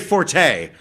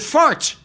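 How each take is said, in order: First: It is said with a second syllable, for-tay. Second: It is said like the word fort. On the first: The speaker calls it wrong. "he would never say forte" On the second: The speaker calls it right. "it's a fort, a man's fort"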